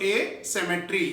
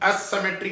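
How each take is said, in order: First: The word begins with a long 'ay' vowel. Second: The word begins with a short 'uh' vowel. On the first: The speaker calls it right. "ए माने absent" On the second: The speaker calls it wrong. "मगर Hindi medium वाले असिमेट्री कहते हैं"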